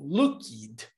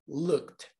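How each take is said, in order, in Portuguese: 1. A terminação tem uma vogal extra antes do D. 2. A terminação é só uma consoante, sem vogal. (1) "Ao invés de falar looked ou looked" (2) "você vai pular o som do E. Como se o som do E desaparecesse. E aí você fala o som do D"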